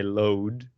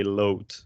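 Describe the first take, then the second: First: Load with a clear English d; voiced final D. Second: Load ending like "loat"; "load", hard voiceless t at the end; devoiced final D. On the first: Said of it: "in English, you would say". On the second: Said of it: "you wouldn't say". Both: Shown as a demonstration.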